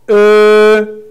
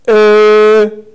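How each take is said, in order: Both takes have the same delivery.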